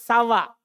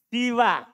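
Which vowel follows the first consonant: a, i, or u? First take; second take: a; i. First: The first vowel is a. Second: The first vowel is i. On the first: "bisa dibaca sawa" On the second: "namanya siwa"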